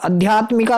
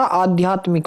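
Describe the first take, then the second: First: "आध्यात्मिका" with short opening a and final aa; wrong vowels. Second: "आध्यात्मिक" opening on long aa, ending in k. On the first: Teacher showing students the mistake, आध्यात्मिका with short first a. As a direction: say आध्यात्मिका as "adhyaatmika". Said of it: "आध्यात्मिका नहीं होता". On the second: Teacher giving students the correction, आध्यात्मिक with long opening aa. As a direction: say आध्यात्मिक as "aadhyaatmik". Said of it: "आ बनेगा यहाँ से". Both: Shown as a demonstration.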